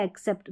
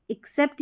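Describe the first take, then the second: First: एक्सेप्ट opening on an "e" vowel; e variant. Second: एक्सेप्ट opening on short "i"; short-i variant. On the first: Teacher showing both accepted ways, e-first एक्सेप्ट. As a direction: say एक्सेप्ट as "ek-sept". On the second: Teacher showing both accepted ways, short-i एक्सेप्ट. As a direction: say एक्सेप्ट as "ik-sept". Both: Shown as a demonstration. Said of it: "दोनों तरीके से".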